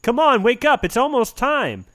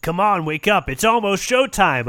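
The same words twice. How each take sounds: First: Rough, raised wake-up call; raspy voice. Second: Raspy whisper. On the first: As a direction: rasp it out to wake them. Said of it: "A raspy for-, oh, a raspy voice says that". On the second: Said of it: "a raspy voice says". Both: Acted.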